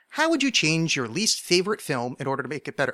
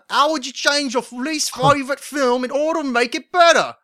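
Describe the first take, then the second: First: It is read in the speaker's ordinary accent. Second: It is read in a put-on British accent.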